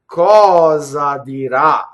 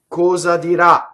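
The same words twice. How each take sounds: First: Both cosa and dirà carry an accent. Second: Cosa is unaccented, with a closed o. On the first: "So I accented both" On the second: "take the accent off of cosa, and now it becomes a closed o"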